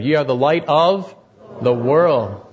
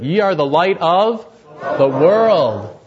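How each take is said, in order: First: It is said in a plain, neutral way. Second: It is said with strong conviction.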